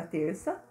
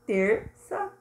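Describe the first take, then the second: First: Said in the usual way. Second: "Terça" in two distinct beats; syllables separated. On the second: Shown as a demonstration. Teacher showing two separated syllables, split "Terça". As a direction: split "Terça" with a brief break. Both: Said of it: "separada as duas sílabas".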